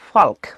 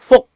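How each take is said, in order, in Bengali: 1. L বানান অনুযায়ী উচ্চারিত হয়। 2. এই শব্দে L নীরব। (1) "সরাসরি উচ্চারণ করতে গিয়ে কি বলে" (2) "এটাকে আমরা কিভাবে উচ্চারণ করবো বলো তো?"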